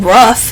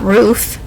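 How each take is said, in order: First: Roof is said with the regional dialect vowel. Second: Roof is said with the standard vowel. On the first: This is how the grandmother says it. "My grandma says roof" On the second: This is how the grandmother does not say it. "not roof"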